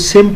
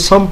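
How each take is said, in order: First: The word is said with an i vowel. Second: The word is said with an a vowel. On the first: "कोई सिम पढ़ रहा होता है" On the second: "कोई सम पढ़ रहा होता है"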